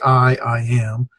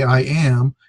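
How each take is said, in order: First: Slow "I, I am", first "I" held apart; emphatic doubled I. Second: Said in the usual way. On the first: Shown as a demonstration. Teacher showing what English doesn't say, "I, I am" slow and emphatic. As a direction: draw out "I", then restate "I am". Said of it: "it's a emphasis that's given". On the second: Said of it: "We say".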